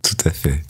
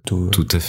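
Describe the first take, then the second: First: It is said with a smile in the voice. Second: It is said plainly, without a smile.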